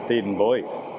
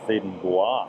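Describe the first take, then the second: First: The name is said with an English pronunciation. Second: The name is said with a French pronunciation. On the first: The speaker calls it right. "mystery solved. It's" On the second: The speaker calls it wrong. "None of that full French nonsense"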